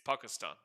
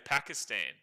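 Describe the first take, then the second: First: It is said with a local-style pronunciation. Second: It is said with an English-style pronunciation. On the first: "but it's Pakistan" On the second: "people would say Pakistan in English"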